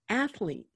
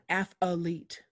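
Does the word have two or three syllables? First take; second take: two; three. First: The word has two syllables. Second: The word has three syllables. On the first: The speaker calls it right. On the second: The speaker calls it wrong. "not athlete"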